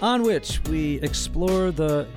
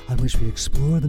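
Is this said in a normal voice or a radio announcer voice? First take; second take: normal; radio voice. First: It is said in an ordinary speaking voice. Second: It is said in a polished radio announcer voice.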